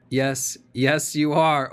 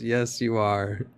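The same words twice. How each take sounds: First: Rising loud, insistent cut-in; loud interjection. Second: Slow, drawn-out mock retort; mock lawyer retort. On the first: Real, not acted. Lawyer overriding the questioner, loud and insistent. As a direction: lawyer cutting in to shut the question down. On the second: Commentator mimicking the lawyer's retort, slow mocking. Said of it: "The lawyer says".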